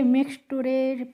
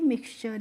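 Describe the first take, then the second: First: The ending is read letter by letter as tooray. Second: The ending is pronounced as a short cher. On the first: The speaker calls it wrong. "इस तरीके से नहीं पढ़ना है" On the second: The speaker calls it right. "टी यू आर ई को हमें चर करके पढ़ना है"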